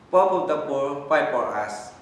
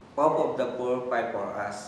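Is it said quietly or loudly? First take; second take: loudly; quietly. First: It is said loudly. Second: It is said quietly.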